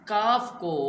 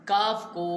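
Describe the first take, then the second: Both takes have the same delivery.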